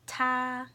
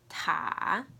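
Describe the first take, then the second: First: It is said with the first tone. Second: It is said with the third tone.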